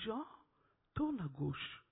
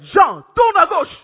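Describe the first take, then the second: First: The voice is soft and gentle. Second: The voice is loud and forceful. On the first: The speaker calls it right. "comme la voix là, elle est tellement douce" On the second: The speaker calls it wrong. "il ne dira pas comme ça"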